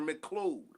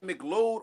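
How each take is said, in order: First: The 'Mc' is said with a clear K sound. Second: The 'Mc' is said without a clear K sound.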